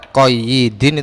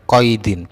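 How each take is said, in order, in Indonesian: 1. Bunyi y-nya ganda dan diikuti i. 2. Bunyi y-nya tunggal tanpa vokal sesudahnya. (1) "Ya-nya ditasdid kemudian di kasrah itu salah" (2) "Yang benar itu ya-nya sukun"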